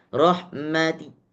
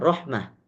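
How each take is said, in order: First: The word ends with a faint final vowel. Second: The word ends with no final vowel. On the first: The speaker calls it wrong. "jangan sampai kita membaca raum. Tidak boleh" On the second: The speaker calls it right. "ini tetap dibaca hanya satu keadaan saja"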